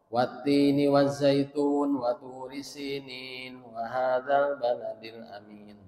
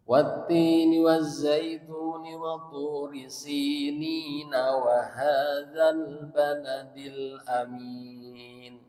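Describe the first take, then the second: First: Verse endings are clipped, all in one breath. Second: Verse endings keep their final vowels and flow on. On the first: The speaker calls it wrong. "Satu nafas nih, kuat nafas nama tapi bacanya eh, diwakaf-wakaf" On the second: The speaker calls it right. "Ada cara membaca di wasol"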